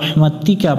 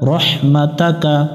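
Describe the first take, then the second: First: The vowel after rahmat is i. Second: The vowel after rahmat is a. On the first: The speaker calls it wrong. "অনেকজন একটা ভুল করে রহমাতিকা পড়ে" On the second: The speaker calls it right. "উপরে জবর আছে"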